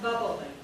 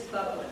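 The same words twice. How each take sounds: First: "bubbling" drawn out into three syllables; mispronounced bubbling. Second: "bubbling" in two syllables, bub-ling; correct bubbling. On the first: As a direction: say "bubbling" with an extra vowel before the L. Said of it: "The water is not bubbling". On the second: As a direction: say "bubbling" with no vowel before the L. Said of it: "It is bubbling". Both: Shown as a demonstration.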